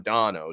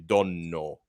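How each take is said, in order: First: The middle n consonant is short. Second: The middle n consonant is held long. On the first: This is how Americans end up saying it. "It becomes dono" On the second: This is the original Italian pronunciation. "is how you say my name properly"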